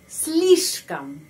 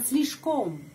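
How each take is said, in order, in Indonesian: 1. Suku kata terakhir diucapkan dengan a yang direduksi. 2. Suku kata terakhir diucapkan dengan o yang jelas. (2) "Bukan om, bukan слишком"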